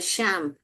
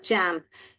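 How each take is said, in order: First: The word begins with a sh sound. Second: The word begins with a ch sound. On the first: The speaker calls it wrong. "श एम्प" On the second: The speaker calls it right. "ये ही सही है"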